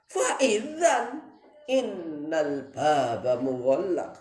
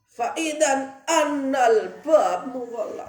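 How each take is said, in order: First: The word after idzan begins with an i vowel. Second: The word after idzan begins with an a vowel. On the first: "boleh di kasrah" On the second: "boleh di fathah"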